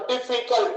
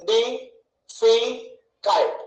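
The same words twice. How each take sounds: First: Said in the usual way. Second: "డిఫికల్ట్" very slowly as di, fi, cult; split into syllables. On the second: Shown as a demonstration. Teacher showing three syllables, "డిఫికల్ట్" one beat at a time. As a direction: separate the three beats of "డిఫికల్ట్" with pauses. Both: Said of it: "మూడు ఉన్నాయి".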